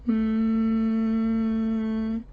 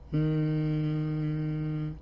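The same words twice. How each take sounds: First: The hum is high in pitch. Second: The hum is middle in pitch. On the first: "raise your pitch like you are placing the sound in the middle of your head" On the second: "put the sound in the middle range"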